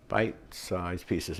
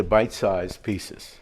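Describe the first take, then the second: First: Slow, soft, separated "Bite-sized pieces"; "Bite-sized pieces" drawn out quietly and carefully; careful tongue twister. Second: Said in the usual way. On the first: Shown as a demonstration. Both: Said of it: "tongue twister".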